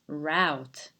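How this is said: It is said in an American pronunciation. "if you stick to the um, American pronunciation, you have to pronounce it route"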